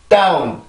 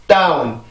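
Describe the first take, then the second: The two takes are said the same way.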